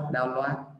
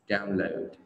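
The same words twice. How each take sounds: First: The stress is on the second syllable. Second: The stress is on the first syllable. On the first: The speaker calls it wrong. "nghe nó không hay" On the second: The speaker calls it right. "trọng âm rơi vào âm tiết đầu tiên"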